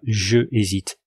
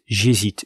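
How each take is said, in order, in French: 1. Je se prononce comme une syllabe pleine et séparée. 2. Le e de je tombe devant hésite. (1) "et non pas" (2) "on va dire J apostrophe hésite"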